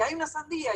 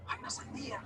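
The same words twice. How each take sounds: First: Higher-pitched, eager announcing of the news; excited announcement. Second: Soft unvoiced whisper about the watermelon; whispered news. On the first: Retold or imitated. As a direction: call it out so everyone gets up. Cousins called about watermelon. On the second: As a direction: whisper the secret to your brother.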